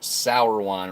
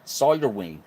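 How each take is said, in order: First: The surname ends with a 'wine' sound. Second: The surname ends with a 'ween' sound. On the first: The speaker calls it right. "so it's pronounced sour wine" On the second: The speaker calls it wrong. "I think I'm saying that properly. I may not be"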